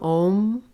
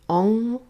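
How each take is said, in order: First: The word ends with an m sound. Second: The word ends with an ng sound. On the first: "Some Om" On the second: "Some pronounce it Ong, O N G"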